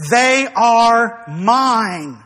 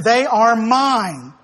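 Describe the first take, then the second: First: Each word of "They are mine" drawn out very slowly; very slow, emphatic, lingering on "mine"; emphatic declaration. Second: Slow, firm stress on "mine"; measured declaration, "mine" falling firmly at the end; firm emphasis. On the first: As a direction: stretch "They", "are" and "mine" with full weight. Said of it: "He emphatically says". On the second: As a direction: say "They are mine" slowly, weight landing on "mine". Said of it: "it's an emphatic thing". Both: Retold or imitated.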